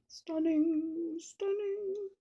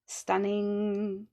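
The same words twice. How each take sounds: First: Sung-out admiring stunning, climbing higher and softer; swooning over her own flower; playful rising gush. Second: Said in the usual way. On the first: Pretend. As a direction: coo it higher each time, drifting off. Okay, sorry.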